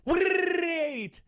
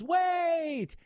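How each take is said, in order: First: The word is stretched out with a trill. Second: The word is yelled short and plain.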